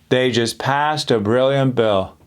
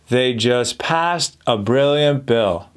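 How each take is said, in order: Both takes have the same delivery.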